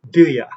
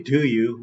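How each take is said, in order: First: The second word is reduced to a weak 'ya'. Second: The second word has a full 'oo' vowel. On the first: The speaker calls it right. "we say do ya" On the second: The speaker calls it wrong. "We don't say do you"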